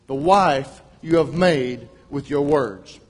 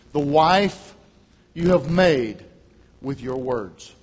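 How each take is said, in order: First: "The wife you have made with your words" said slowly, weight on "wife"; emphatic slow repeat. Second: Said in the usual way. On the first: Shown as a demonstration. Preacher restating his sermon title to the church, slow and emphatic. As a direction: hammer the sermon title home. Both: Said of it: "on the subject".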